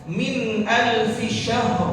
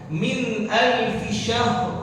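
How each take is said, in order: Both takes have the same delivery.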